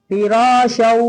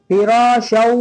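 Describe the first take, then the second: No difference in how they are said.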